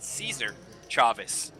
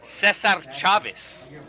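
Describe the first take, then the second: First: The name is pronounced in anglicized English style. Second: The name is pronounced in Spanish style. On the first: The person saying it lives locally. "all the locals call it Caesar Chavez" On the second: The person saying it is a visitor. "which once again is the proper Spanish way to pronounce it"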